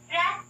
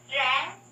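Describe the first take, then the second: First: RANG high and cut short; short, steep tone. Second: RANG gliding up through its ending; longer rising tone. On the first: Teacher compares syllable endings, RANG short, high and steep. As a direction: jump up on RANG and stop it at once. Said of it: "will become fairly short and steep". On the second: Teacher compares syllable endings, RANG with a gradual rise. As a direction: draw RANG upward from the usual pitch. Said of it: "Let's compare". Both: Shown as a demonstration.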